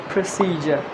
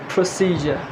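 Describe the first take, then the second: No difference in how they are said.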